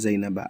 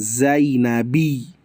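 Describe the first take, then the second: First: The name ends in an 'a' vowel. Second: The name ends in an 'i' vowel. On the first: The speaker calls it right. "Yang benar ila Zainaba" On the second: The speaker calls it wrong. "bukan Zainabi. Keliru"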